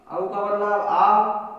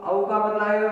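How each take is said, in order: First: Slow drawn-out demo. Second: Said in the usual way. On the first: Shown as a demonstration. Teacher to pupils, slowly stretching आव.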